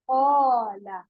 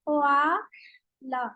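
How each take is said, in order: First: The long vowel after the q sounds full and heavy. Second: The long vowel after the q sounds thin and light. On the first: The speaker calls it right. "एक ही आवाज के साथ अलिफ भी पढ़े, यानी इसको भी मोटा करें" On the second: The speaker calls it wrong. "Students अक्सर क्या करते हैं कि अ, हुरूफ को मोटा करते हैं लेकिन उसके अलिफ को बारीक कर देते हैं"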